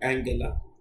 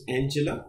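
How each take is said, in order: First: The name is said the German way. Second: The name is said the usual English way. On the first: This is how the person's own name is pronounced. "but her name goes like Angela" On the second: This is the common everyday pronunciation. "We normally pronounce it as Angela"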